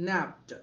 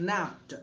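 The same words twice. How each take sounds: No difference in how they are said.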